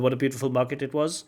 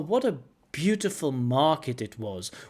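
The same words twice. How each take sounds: First: It sounds flat and rushed, with no pauses. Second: It sounds impressed, with lively pitch and pauses. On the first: It sounds pre-rehearsed, not felt. The speaker calls it wrong. "he's machine gunning" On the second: The speaker is genuinely impressed. The speaker calls it right. "When we are impressed by things, we can hear it in the pronunciation... with the right type of pausing"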